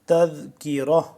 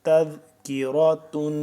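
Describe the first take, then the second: First: The word ends softly with an 'ah' sound. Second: The word ends with a full 'tun' syllable. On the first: The reader stops at this word. "अगर वक्फ करेंगे तो हो जाएगा" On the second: The reading continues without stopping. "ता दो पेश तुन"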